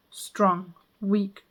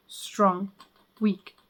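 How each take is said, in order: Both takes have the same delivery.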